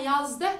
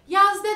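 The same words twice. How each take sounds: First: The word ends with a full, stressed final sound. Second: The word ends weakly, without a strong final sound. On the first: The speaker calls it right. "daha kulağa hoş ve tok geliyor" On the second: The speaker calls it wrong. "çok basit duruyor"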